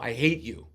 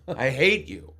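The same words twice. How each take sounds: First: Mock angry. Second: Escalated, louder I hate you; louder mock anger. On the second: Woman in a restaurant yelling at the AOL voice, mock anger. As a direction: punch hate harder the second time. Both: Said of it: "she goes".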